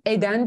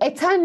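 First: The middle consonant is a voiced 'd'. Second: The middle consonant is a voiceless 't'. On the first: The speaker calls it right. "Eden diyoruz" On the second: The speaker calls it wrong. "Biz eten mi diyoruz"

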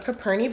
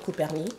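First: It is said with a plain English accent. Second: It is said with a French accent.

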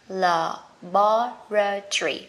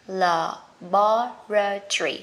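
First: It is said with a British pronunciation. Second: The same.

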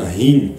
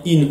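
First: The word starts with a strong h sound. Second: The word starts directly with the vowel. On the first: The guttural letter is pronounced properly. The speaker calls it right. "en insistant sur le he" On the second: The speaker cannot pronounce the guttural letter. The speaker calls it wrong. "il disait un in"

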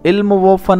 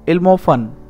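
First: The middle 'wo' is said as a separate word. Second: The middle 'o' runs straight on from 'ilm'. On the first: The speaker calls it wrong. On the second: The speaker calls it right.

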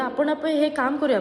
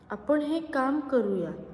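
First: The sentence is spoken very fast. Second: The sentence is spoken slowly. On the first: "सुरुवातीला मी फार fast बोलले" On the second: "आत्ता मी तेच खालच्या, म्हणजे एकंदरीत कमी स्पीडमध्ये बोलले"

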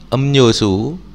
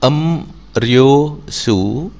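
First: The middle consonant is said as n. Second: The middle consonant is said as r. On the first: This is how the word is actually read. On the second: This is how the word is spelled.

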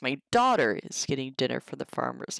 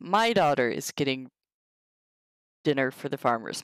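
First: The stress is on the word daughter. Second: The stress is on the word my.

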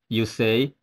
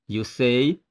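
Both takes have the same delivery.

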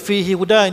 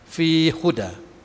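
First: The two h sounds are pronounced separately. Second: The two h sounds are merged into one. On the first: "kita baca fihi huda" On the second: "dia idgham"

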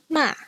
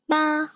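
First: It is said with the fourth tone. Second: It is said with the first tone. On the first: "here is the fourth tone" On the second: "here are some examples of some words with this first tone"

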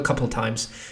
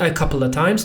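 First: The word 'of' is nearly inaudible. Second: The word 'of' is fully pronounced. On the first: The speaker calls it right. "to of jest po prostu niesłyszalne" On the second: The speaker calls it wrong. "Nie a couple of times"

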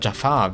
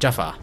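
First: The stress is on the second syllable. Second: The stress is on the first syllable. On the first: The speaker calls it wrong. "Ich sage immer Jafar, wie aus Aladdin" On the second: The speaker calls it right. "Aber er ist eigentlich Jafar. Also Betonung auf das erste A"

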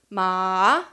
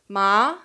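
First: Ma is said with the tone meaning horse. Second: Ma is said with the tone meaning numb. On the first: The word means horse. "would mean horse" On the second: The word means numb. "it would mean numb"

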